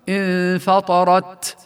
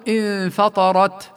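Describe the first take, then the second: First: The final t has a long, heavy hiss like s. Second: The final t has a short, light breath. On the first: The speaker calls it wrong. "كمن يبالغ بهمس التاء فيقول مثلا انفطرت" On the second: The speaker calls it right. "بل نقول انفطرت"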